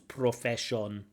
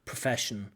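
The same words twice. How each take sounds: First: The unstressed vowels are pronounced as full vowels. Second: The unstressed vowels are reduced to schwa. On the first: The speaker calls it wrong. "Some people speak English as though they are reading the words" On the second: The speaker calls it right. "we have the sound uh, which is used for almost every unstressed uh, vowel sound"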